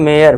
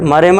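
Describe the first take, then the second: First: The first vowel is a long ay sound. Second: The first vowel is a short a sound. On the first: The speaker calls it right. "इसे पढ़ना है मेयर" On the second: The speaker calls it wrong. "मरे मत पढ़ देना"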